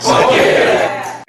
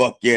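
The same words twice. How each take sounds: First: Loud high whooping shout; shouted fuck yeah. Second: Louder, higher call of fuck yeah. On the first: Acted. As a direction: yell fuck yeah at the top of your lungs. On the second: Shown as a demonstration. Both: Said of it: "If I ask for a".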